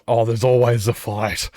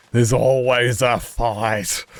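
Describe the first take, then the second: First: Louder, casual quote of a friend; matter-of-fact friend. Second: Slow, louder repeat of a quoted friend; drawn-out repeat. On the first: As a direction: toss it off like it's obvious. Friend quoted about going for fights. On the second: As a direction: stretch it out to drive it home. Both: Retold or imitated.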